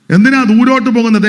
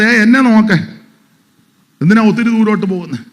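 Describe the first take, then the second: First: Loud, high rhetorical question; loud challenge. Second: Quick, urgent quoted rebuke; voicing God. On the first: Acted. Pastor demanding why they look far away, loud and raised. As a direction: throw the question at the crowd. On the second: God telling the listener to look at him, quick and urgent. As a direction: rattle it off as God calling out.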